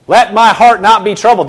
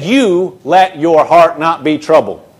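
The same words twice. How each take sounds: First: The misquote with heart stressed, let my heart not be troubled, in a falling tune; wrong version. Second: You let your heart not be troubled, slowly, with You punched hardest; stress on YOU. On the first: Preacher to congregation, the wrong reading, stress on heart. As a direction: say let my heart not be troubled leaning on heart, as if Jesus does the work. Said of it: "that's not what he said".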